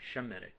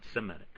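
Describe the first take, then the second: First: The word begins with an sh sound. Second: The word begins with an s sound. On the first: This is the original form of the word. "originally pronounced as it should be" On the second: This is the later, changed form of the word. "lost the S H sound and it just became an S sound"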